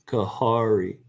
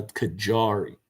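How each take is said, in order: First: "Kahari" with an h sound in the middle. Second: Slow "Kajari" with a hard J as in jar. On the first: Real, not acted. Gardener slipping on the melon name, "Kahari" with an H. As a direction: slip into "Kahari", the J turned to H. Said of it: "thinking the J would sound like an H". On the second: Shown as a demonstration. Gardener correcting own slip for viewers, slow "Kajari" with hard J. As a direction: correct yourself slowly to "Kajari", clear j sound. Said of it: "It's a hard J".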